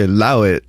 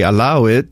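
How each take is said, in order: First: British-accented "Allow it", with the A altered. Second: Said in the usual way. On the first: Shown as a demonstration. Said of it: "and they'll say". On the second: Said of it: "like, we would say".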